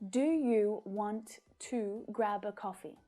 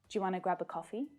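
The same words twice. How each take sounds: First: Each word is said separately with breaks between. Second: The words run smoothly together without any breaks. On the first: The speaker calls it wrong. "without connected speech. It's really choppy" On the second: The speaker calls it right. "That's much better"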